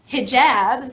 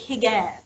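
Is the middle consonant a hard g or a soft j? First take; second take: soft j; hard g. First: The middle consonant is a soft j sound. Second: The middle consonant is a hard g sound. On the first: "there's a letter called uh, Jim" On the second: This is how Egyptians say it. "here in Egypt they pronounce it Gim"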